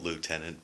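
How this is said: It is said as it is written. "it's spelt lieutenant"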